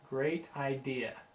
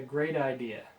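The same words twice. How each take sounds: First: The T in 'great' is a clear T. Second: The T in 'great' sounds like a D.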